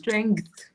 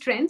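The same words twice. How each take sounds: First: The G sound is clearly pronounced. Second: The G sound is left out. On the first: The speaker calls it right. "G will be pronounced. It's not silent" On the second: The speaker calls it wrong. "we're not pronouncing G. We feel that G is silent"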